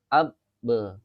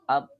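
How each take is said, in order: First: The final b is released with a bounce. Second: The final b is held with lips closed. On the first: "seperti itu mantul" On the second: "ini kan masih masih rapat"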